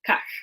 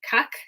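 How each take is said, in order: First: The final sound is made far back in the throat. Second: The final sound is a plain front k. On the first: "further back in your throat" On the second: "like kak"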